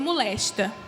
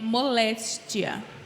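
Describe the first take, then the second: First: The word ends in -esta, with no i sound. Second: The word ends in -éstia, with an i sound. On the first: It is the local Cariri usage. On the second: It is the standard Portuguese form. "o correto da língua portuguesa é moléstia"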